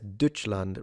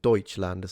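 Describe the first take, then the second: First: Deutschland is pronounced the Frisian way. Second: Deutschland is pronounced the standard German way. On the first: "he says Deutschland" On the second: "rather than Deutschland"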